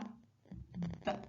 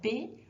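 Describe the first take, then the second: First: The consonant is said alone with no vowel. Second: The consonant is followed by an added vowel sound. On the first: The speaker calls it right. "On va plutôt prononcer les lettres comme suit" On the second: The speaker calls it wrong. "éviter de prononcer à la fin de chaque lettre le son E"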